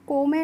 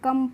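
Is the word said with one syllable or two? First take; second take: two; one. First: It is read as two syllables, ko-me. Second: It is said as one syllable, kum. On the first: The speaker calls it wrong. "इसको को में नहीं पढ़ते हैं" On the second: The speaker calls it right. "इसको हम कम पढ़ते हैं"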